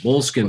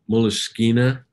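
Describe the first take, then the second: First: The word ends plainly without an added vowel. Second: The word ends with an added vowel sound. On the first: This is the familiar local way to say it. "Moleskin sounds much better" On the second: This is how the makers say it. "I think they pronounce it moleskina"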